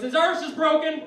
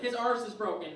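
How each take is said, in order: First: High, loud Irish announcement; angry Irish dad. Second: Irish dad quote at normal volume; toned-down Irish dad. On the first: Acted. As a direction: bellow it as an irate Irish father. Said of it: "my angry Irish father". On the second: Retold or imitated. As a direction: repeat dad's line without shouting. Comedian repeats dad's opening line.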